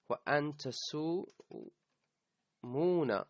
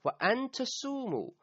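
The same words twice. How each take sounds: First: تَصُومُونَ said with its final nun sounded, tasumuna; full form تَصُومُونَ ending on -na; وَأَن تَصُومُونَ with the noon kept. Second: تَصُومُوا ending on a long u, no nun; وَأَن تَصُومُوا said fast with the final noon dropped; تَصُومُوا cut off at tasumu; without the noon. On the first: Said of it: "you lose the noon". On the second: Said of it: "its sign of nasb is an omission of the noon". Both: Shown as a demonstration.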